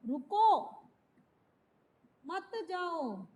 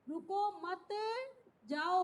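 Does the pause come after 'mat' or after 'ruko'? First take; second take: after ruko; after mat. First: The pause comes right after 'ruko'. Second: The pause comes right after 'mat'.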